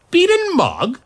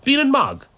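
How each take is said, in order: First: BEAN AND MOG as a high, loud rising question; incredulous "Bean and Mog", lifting at the end. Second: BEAN AND MOG as a confident final list item, falling; high "Bean and Mog" that drops at the end. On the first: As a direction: echo "Bean and Mog" in baffled disbelief. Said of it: "questioned Alice". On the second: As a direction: offer "Bean and Mog" as a sure suggestion. Last name offered in a list. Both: A narrator's reading.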